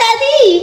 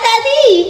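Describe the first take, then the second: First: It sounds cheerful and happy. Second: The same.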